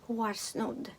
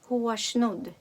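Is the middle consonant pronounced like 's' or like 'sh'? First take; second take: s; sh. First: The consonant after r sounds like s. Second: The consonant after r sounds like sh. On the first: "як деякі шведи вимовляють і ес" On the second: "Ес вимовляємо як ш"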